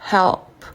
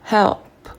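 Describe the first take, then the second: The two takes are said the same way.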